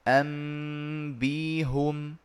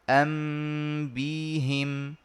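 First: The h is followed by a u vowel. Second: The h is followed by an i vowel. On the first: "بعد الإبدال تصير أنبيهم" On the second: "ويجوز لي كسر الهاء لتناسب الياء"

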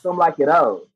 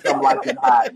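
First: The last word sounds like 'oh', without h or t. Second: The last word sounds like 'hot', with h and t. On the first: This is the French fashion pronunciation of the spelling. "So it's actually pronounced Some Like It O" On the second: This keeps the play on the movie title. "I want you to see it and say Some Like It Hot"

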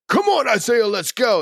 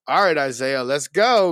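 First: It sounds like encouraging, cheering support. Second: It sounds ominous, like a warning of trouble.

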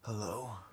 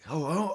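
First: A deep, intense, tough-sounding voice. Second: A light, nasal, natural voice.

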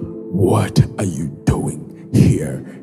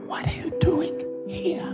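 First: The question is said in a loud, booming voice. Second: The question is said in a quiet, gentle voice. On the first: The speaker calls it wrong. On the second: The speaker calls it right. "he came in a still small voice. ... No, it's"

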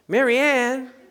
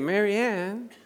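First: The name is said in a harsh, unfriendly tone. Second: The name is said in a warm, kind tone. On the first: The speaker feels badly toward the person. The speaker calls it wrong. "that's not good" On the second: The speaker feels fondly toward the person. The speaker calls it right. "But if I say Mary Ann"

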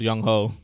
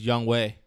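First: The second syllable sounds like 'ho'. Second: The second syllable sounds like 'way'. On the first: It is read the way an American would. The speaker calls it wrong. "as a fellow American, you read it as Young Ho" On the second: It is the way the name is really said. The speaker calls it right. "the real way? It's Young Way"

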